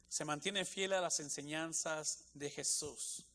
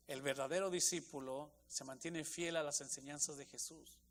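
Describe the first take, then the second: First: "se mantiene fiel a las enseñanzas de Jesús" slow, each word weighted; slow emphasis. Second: Said in the usual way. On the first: Shown as a demonstration. Preacher driving home the first point, slow and stressed. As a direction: lean on every word, slowly.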